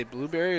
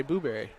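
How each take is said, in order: First: Said in the usual way. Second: "blueberry" said as BOO-berry; alternative pronunciation of blueberry. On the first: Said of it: "Do you say blueberry". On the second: Shown as a demonstration. Colour man teases booth partner, "blueberry" as boo-berry. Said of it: "or do you say blueberry".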